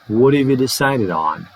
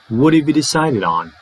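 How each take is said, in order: First: The word have is reduced to a short weak form. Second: The word have is reduced to a short weak form.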